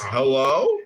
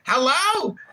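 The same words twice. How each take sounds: First: It is said in a polite, ordinary way. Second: It is said high-pitched and quickly. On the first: The speaker calls it wrong. "you're still saying it too polite. You're saying you're saying it like this" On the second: The speaker calls it right. "You gotta say it"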